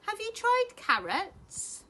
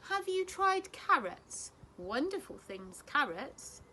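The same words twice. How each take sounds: First: Put-on high, loud, slow old lady asking; a dotty granny's cheerful question. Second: Put-on high, slow old lady repeating carefully; a patient granny saying it again. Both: A narrator's reading.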